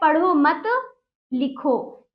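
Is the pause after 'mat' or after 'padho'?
after mat. A pause comes right after 'mat'. The listener is told to write, not read. "लिखने को कहा जा रहा है"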